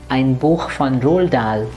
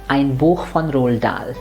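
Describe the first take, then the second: Both takes have the same delivery.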